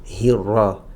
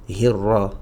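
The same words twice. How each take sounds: No difference in how they are said.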